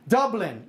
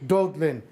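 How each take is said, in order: First: Said in the usual way. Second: Slow "Dublin" with a d for the b, "Dudlin"; puppet's mispronunciation. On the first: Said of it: "How come I can say it". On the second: Shown as a demonstration. Puppet demanding "say it like me", "Dublin" slowly said as "Dudlin". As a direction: draw out "Dublin" as "Dood-lin". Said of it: "say it like me".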